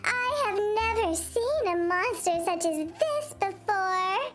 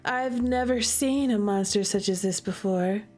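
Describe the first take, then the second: First: It is read in a crazy cat voice. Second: It is read in her normal voice.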